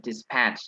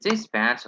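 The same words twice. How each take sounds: First: Dispatch with the weight on "patch"; stress on second syllable. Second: Dispatch with the weight on "dis"; stress on first syllable. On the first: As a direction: try dispatch as dis-PATCH. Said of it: "or is it dispatch". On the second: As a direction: try dispatch as DIS-patch. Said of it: "Is it dispatch or is it dispatch". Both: Shown as a demonstration.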